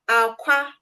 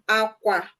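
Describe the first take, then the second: First: It carries the tone pattern of 'egg'. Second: It carries the tone pattern of 'bed'. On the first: It means egg. "aqua means egg" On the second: It means bed. "aqua means bed"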